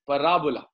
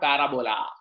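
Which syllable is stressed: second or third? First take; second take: second; third. First: The stress is on the second syllable. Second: The stress is on the third syllable. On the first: The speaker calls it right. "the pronunciation is parabola" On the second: The speaker calls it wrong. "not parabola"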